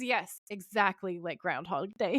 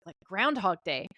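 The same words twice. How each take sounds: First: So done. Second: Lightly puzzled question in the usual voice; querying. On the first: Sam confirms the time loop to Dean, so done. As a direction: imitate someone completely fed up, stretching the words. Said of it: "He's so fucking done". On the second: Dean asks Sam about the time loop, querying. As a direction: toss it out as a quick query. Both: Retold or imitated.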